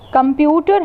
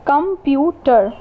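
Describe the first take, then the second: First: Said in the usual way. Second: "computer" slowly in three beats, com-pu-ter; slow, separated "computer": com, pu, ter; split into syllables. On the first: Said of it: "Computer has three spell-, uh, syllables". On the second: Shown as a demonstration. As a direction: sound out "computer" one syllable at a time.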